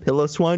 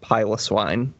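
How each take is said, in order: First: The first syllable sounds like 'pill'. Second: The first syllable sounds like 'pie'. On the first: The speaker calls it wrong. "because it's like a pillow" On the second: The speaker calls it right. "the prefix Pylos indicates hairy"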